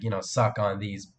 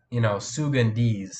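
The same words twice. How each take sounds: First: "suck on these" said slowly, sounding like Sugan D's; slow sound-alike. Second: "Sugan D's" said slowly as a name, soo-gan dees; slow name reading. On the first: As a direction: drag out "suck on these" to show the pun. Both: Shown as a demonstration. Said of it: "That sounds more like".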